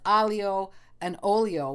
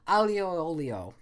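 First: The middle vowel is sounded as a separate word. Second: The middle vowel is slurred into the surrounding words. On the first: "it is alio and olio" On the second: "you sort of slur them, it slides together, it elides in"

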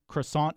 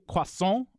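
First: The word is said with an American accent. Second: The word is said with a French accent. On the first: "that's what everyone here says" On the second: "In French, this is going to be croissant"

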